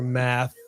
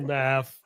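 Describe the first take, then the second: First: The word ends with a th sound. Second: The word ends with an f sound. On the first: The speaker calls it right. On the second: The speaker calls it wrong.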